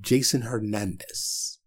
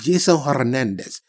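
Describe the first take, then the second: First: The name is said in a plain English accent. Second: The name is said in a put-on Spanish accent. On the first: The speaker calls it right. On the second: The speaker calls it wrong.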